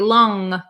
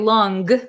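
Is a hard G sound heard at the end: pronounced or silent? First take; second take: silent; pronounced. First: It ends with a nasal sound, no hard G. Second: It ends with a hard G sound. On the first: The speaker calls it right. "but we say long, it's kind of a nasally sound" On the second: The speaker calls it wrong. "We don't say long"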